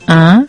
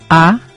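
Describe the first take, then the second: First: The vowel is said with air through the nose. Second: The vowel is said through the mouth only. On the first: "Puae tingua ya uereco pesa" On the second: "Puae yurua ya huereco"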